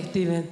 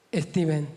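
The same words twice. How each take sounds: First: "Steven" clipped, the S dropped, like tiven; mum's Spanish-accented "Steven"; Spanish mispronunciation. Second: "Steven" said with a Spanish lisp, the S dropped, like iththeen; Spanish mispronunciation. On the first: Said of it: "What's his name, Mum?". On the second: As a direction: imitate mum saying "Steven" without the opening S. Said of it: "She calls him". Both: Retold or imitated.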